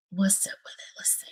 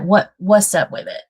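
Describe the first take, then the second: First: Whispered to herself, much softer. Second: Said in the usual way. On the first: Real, not acted. Streamer testing her own audio, whispering. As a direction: breathe the question out, no voice. Repeats question under her breath.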